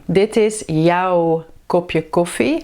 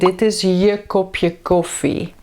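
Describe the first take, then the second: First: The pronoun is said in its full form. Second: The pronoun is said in a short reduced form.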